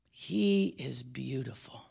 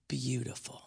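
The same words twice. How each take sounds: First: Said in the usual way. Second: Breathy hush on the word beautiful; whispered. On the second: Real, not acted. Preacher to congregation, soft whisper. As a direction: drop to a whisper to make it sink in.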